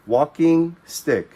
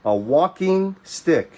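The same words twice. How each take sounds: First: "Walking stick" again, even slower and louder; slow repeat. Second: "walking stick" slowed and higher, WALKING stressed; slow teaching stress. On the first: Teacher repeating the new word for children, slow and clear. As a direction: model "Walking stick" slow for the class to copy. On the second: Teacher naming a new word for pupils, slow and stressed. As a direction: say "walking stick" slowly and lift it. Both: Shown as a demonstration. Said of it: "so we call this".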